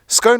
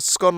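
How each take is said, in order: First: The vowel is long, rhyming with cone. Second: The vowel is short, not rhyming with cone.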